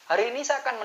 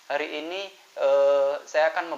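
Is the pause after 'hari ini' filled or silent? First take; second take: silent; filled. First: The pause is silent with no filler sound. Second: The pause is filled with an 'eh' sound. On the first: The speaker sounds calm and more authoritative. The speaker calls it right. "saya akan menunjukkan yang kosong" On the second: The speaker sounds hesitant and less authoritative. The speaker calls it wrong. "Contoh yang pertama yang pose-nya isi yang E"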